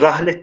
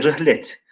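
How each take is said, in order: First: The first vowel is an open 'a' sound. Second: The first vowel is a close 'i' sound. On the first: The speaker calls it wrong. "rahlet değil" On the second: The speaker calls it right. "de rihlet"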